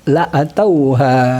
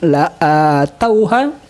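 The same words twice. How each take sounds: First: The vowel after the hamzah is kept short. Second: The vowel after the hamzah is drawn out long. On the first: "tanpa memanjangkan hamzah"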